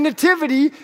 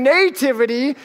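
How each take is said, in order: First: "nativity" said nuh-TIV-ity, second syllable stressed; later accent in nativity. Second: "nativity" said NAY-tivity, first syllable stressed; long NAY in nativity. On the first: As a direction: reduce the first vowel of "nativity", stress TIV. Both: Shown as a demonstration. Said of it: "where you put the accent".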